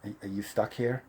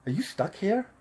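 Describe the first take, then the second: First: Hesitant stranger. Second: Higher, soft retold question; imitated young woman. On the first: Retold or imitated. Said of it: "He goes". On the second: Girl in line behind him asks, in a higher voice. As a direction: lightly voice a woman asking, pitched up. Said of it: "She goes, um".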